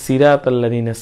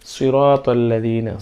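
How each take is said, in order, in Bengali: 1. প্রথম 's' সাধারণ, ঠোঁট গোলাকার নয়। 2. প্রথম 's' ভারী, ঠোঁট গোলাকার। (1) "আমরা যদি বলি সিরাত আল্লাযীনা, সিরা তাহলে হবে না" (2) "বলতে হবে সিরাত আল্লাযীনা"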